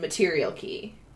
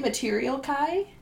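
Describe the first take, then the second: First: The final syllable rhymes with 'see'. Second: The final syllable rhymes with 'eye'. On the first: "A K-I would make a key sound" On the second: "So you say material kai?"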